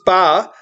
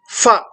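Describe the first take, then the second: First: It begins with an aspirated p sound. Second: It begins with an f sound. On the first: The speaker calls it right. "You should pronounce as pa. This is pa" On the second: The speaker calls it wrong. "several people who pronounce this as fa, which our teacher used to say it is wrong"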